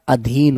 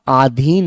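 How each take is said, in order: First: The first vowel is a short 'a'. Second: The first vowel is a long 'aa'. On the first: The speaker calls it right. "अधीन होता है" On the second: The speaker calls it wrong. "आधीन नहीं होता बेटा"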